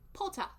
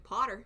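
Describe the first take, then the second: First: It is said in a put-on British accent. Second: It is said in the speaker's ordinary accent. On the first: "I say Potter" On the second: "instead of saying Potter"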